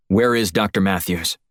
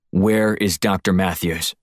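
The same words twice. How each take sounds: First: Said in the usual way. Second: Slow and deliberate, each word weighted; slow threat. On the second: Acted. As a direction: spell it out slowly as the last warning. I'm only going to ask you once more.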